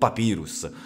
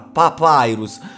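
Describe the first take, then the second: First: The word is pronounced with an Italian reading. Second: The word is pronounced with an English reading. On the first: The speaker calls it right. "È molto più bello Papyrus" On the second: The speaker calls it wrong. "ma senti come suona Papyrus. ... ma fa schifo Papyrus, ma è orribile"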